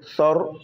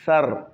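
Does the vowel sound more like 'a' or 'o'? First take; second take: o; a. First: The vowel is rounded, like 'o'. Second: The vowel is open, like 'a'. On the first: The speaker calls it wrong. "Quand on fait sor, là on a gâté" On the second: The speaker calls it right. "Sar. Voilà"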